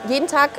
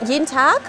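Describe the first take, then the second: No difference in how they are said.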